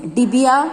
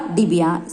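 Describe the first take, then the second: First: डिबिया said with its pitch rising at the end; डिबिया with an open, rising finish; rising tune. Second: डिबिया said with its pitch falling low at the end; डिबिया with a final falling finish; falling tune. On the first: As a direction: lift डिबिया up as if the list goes on. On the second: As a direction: settle डिबिया down to close the example. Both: Shown as a demonstration. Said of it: "तो चिड़िया".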